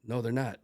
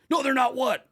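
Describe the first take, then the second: First: Said in the usual way. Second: Very loud, high shouted challenge; imitation of an instructor bellowing; drill instructor yell. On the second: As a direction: throw the answer back as an instructor's shout. Instructor yelling back the cadet's answer.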